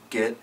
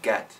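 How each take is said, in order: First: The vowel has the speaker's Missouri accent. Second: The vowel has a general, non-Missouri accent. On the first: This is how the speaker says it. "things I was doing that were different" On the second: This is how other people say it. "from what other people were doing"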